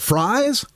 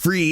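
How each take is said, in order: First: The name sounds like the word fries. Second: The name sounds like the word freeze. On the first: The speaker calls it wrong. "they call him Bill Fries" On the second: The speaker calls it right. "he pronounced his name Freeze"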